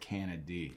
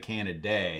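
First: The name ends with an 'ee' sound. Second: The name ends with an 'ay' sound. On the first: The speaker calls it right. "It's just a Y. So I'm going with Canady" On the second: The speaker calls it wrong. "some people say Canaday"

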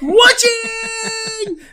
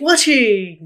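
First: It is said with more enthusiasm. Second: It is said with little enthusiasm.

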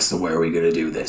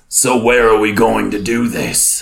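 First: It is said in a light, casual manner. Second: It is said in a weighty, serious manner. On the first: "He's like" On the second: "do you want to say it again with gravitas?"

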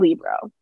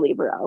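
First: The word is said with two syllables. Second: The word is said with three syllables. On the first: The speaker calls it wrong. "don't say libro. That's not right at all" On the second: The speaker calls it right. "like the purpose of saying three syllables"

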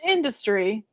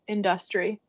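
First: The word is said the usual, standard way. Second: The word is said the local regional way. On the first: The speaker calls it wrong. "it is not pronounced industry" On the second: The speaker calls it right. "It's industry"

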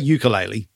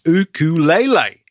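First: It is said the common English way. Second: It is said the Hawaiian way. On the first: The speaker calls it wrong. "don't say ukulele to him" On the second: The speaker calls it right. "It's ukulele"

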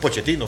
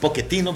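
First: It is said the Argentine way, with 'ch'. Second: It is said the Italian way, with 'k'.

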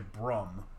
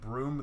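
First: It is said like brum, Baltimore style. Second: It is said in the standard way. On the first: "they'll say brum" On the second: "instead of saying broom"

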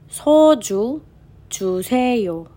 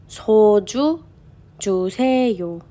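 Both takes have the same delivery.

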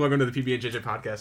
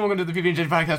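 First: It is said at a normal speed. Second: It is said at a rushed, fast speed. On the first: "it's like the same speed every time" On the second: "if I was actually getting faster every episode"

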